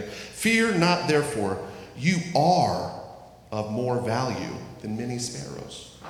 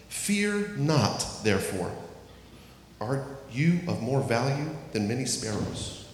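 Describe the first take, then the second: First: "You are of more value than many sparrows" read as a firm statement; corrected declarative read. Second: Reading "Are you of more value than many sparrows" as a question; misread as a question. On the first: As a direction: read it again as plain assurance. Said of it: "Let me read that again". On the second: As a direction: misread the verse as if asking. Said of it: "I said that as a question". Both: Shown as a demonstration.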